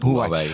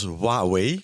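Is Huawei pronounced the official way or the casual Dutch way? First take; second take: casual Dutch; official. First: The name is said in a casual Dutch pronunciation. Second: The name is said in its official pronunciation. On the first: "Ik hou het ook gewoon lekker op Huawei. We zijn Nederlanders onder elkaar" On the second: "Officieel zeg je zelfs Huawei"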